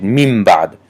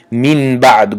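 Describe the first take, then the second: First: میم بعد said easily, M replacing the N before B; nun turned to mim. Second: من بعد with a clear N held before the B; unconverted nun. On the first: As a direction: let the lips close on M in میم بعد. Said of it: "نون رو به میم تبدیل دادیم". (میم بعد با میم به جای نون، آسان) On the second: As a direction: keep the N in من بعد, not turning it into M. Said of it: "گفتن مشکل تر است". (من بعد با نون آشکار، بدون تبدیل به میم) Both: Shown as a demonstration.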